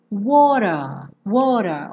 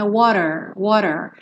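First: WATER com T batido e sem R final, "uóra"; quase britânica. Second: WATER com T batido e R final enrolado; R americano enroladinho. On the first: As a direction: termine WATER em A, sem enrolar. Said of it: "Também uma pronúncia quase britânica". (WATER como "uóra", R final mudo) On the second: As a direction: enrole o fim de WATER, "uórer". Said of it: "o R enroladinho". (WATER bem americano) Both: Shown as a demonstration.

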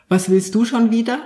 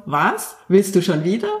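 First: "schon" lifted with a rising tune, annoyed question; stress on schon. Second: "wieder" rising at the end instead of "schon"; stress on wieder. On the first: Podcast guest demos stress, first take on "schon". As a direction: lean on "schon" as if fed up. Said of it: "wie unterschiedlich man was betonen kann". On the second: Guest shows listeners the second stress, on "wieder". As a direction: put the weight on "wieder". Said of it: "wenn ich das anders betone". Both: Shown as a demonstration.

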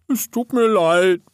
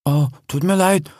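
First: High, slow, whimpering apology; tearful. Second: Sincere, understated apology; serious. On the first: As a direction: apologise on the verge of tears. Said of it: "fing an zu weinen". (weinerlich, hoch und langsam) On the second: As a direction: drop the teasing and apologise earnestly. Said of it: "wurde auch sie ernst". (ernst, aufrichtig entschuldigend) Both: A narrator's reading.

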